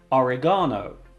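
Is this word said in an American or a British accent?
British. It is said in a British accent.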